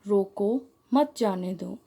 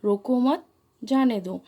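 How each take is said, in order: First: रोको set apart, then मत जाने दो run together; pause after रोको. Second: रोको मत run together, then जाने दो set apart; pause after मत. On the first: Teacher showing how a comma changes meaning, pausing right after रोको. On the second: Teacher showing the opposite meaning, pausing only after रोको मत. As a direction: join मत to रोको, break before जाने दो. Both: Shown as a demonstration. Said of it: "एक चिन्ह के कारण यहाँ पर उपयुक्त दोनों वाक्यों का अर्थ भिन्न".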